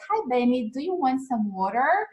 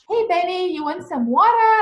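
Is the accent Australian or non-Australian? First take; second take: non-Australian; Australian. First: It is said in a non-Australian accent. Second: It is said in an Australian accent.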